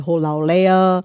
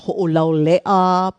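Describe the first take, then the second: First: The first vowels run together without a stop. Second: A glottal stop separates the first vowels. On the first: The speaker calls it wrong. "People say Ho'olaulea" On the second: The speaker calls it right. "the street we live on is Ho'olaulea"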